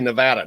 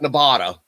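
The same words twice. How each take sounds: First: The middle vowel is said the local way. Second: The middle vowel is said the outsider way. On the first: This is how people from there say it. The speaker calls it right. "if you're from there, it's Nevada. They say Nevada" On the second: This is how people from elsewhere say it. The speaker calls it wrong. "not Nevada"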